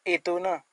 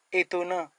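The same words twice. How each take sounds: The two takes are said the same way.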